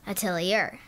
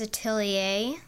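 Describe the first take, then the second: First: The name is pronounced the English way. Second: The name is pronounced the French way. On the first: The speaker calls it wrong. "if you didn't know how to pronounce it, you would say it Atelier" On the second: The speaker calls it right. "its name is French"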